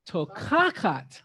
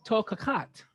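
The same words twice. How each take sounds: First: Slow Tokakat with weight on the kaf syllable; Hebrew stress. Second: Said in the usual way. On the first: Shown as a demonstration. Teacher showing the class where Tokakat is stressed, slow. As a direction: say Tokakat slowly, leaning on the accented kaf. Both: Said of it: "the emphasis now is on this accent".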